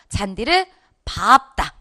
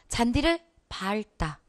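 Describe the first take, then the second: First: 밟다 is said with a P sound, like 밥따. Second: 밟다 is said with an L sound, like 발따. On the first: The speaker calls it right. "이래줘야 된다잖아" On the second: The speaker calls it wrong. "이거 같잖아요"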